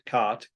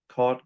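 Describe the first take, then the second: First: The vowel is an open 'ah' sound. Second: The vowel is a back 'aw' sound. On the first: "In that case, they have an A" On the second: "I have an aw sound in all of those"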